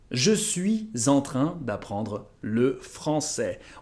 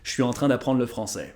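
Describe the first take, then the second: First: It is said carefully and fully. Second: It is said casually and more run together.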